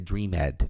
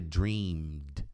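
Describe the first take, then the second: First: The ending is said as an extra syllable. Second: The ending adds no extra syllable. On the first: The speaker calls it wrong. "não é dreamed" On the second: The speaker calls it right. "esse E não é pronunciado"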